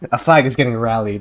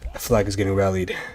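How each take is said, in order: First: It is said in an ordinary, casual tone. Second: It is said in a grave, serious tone.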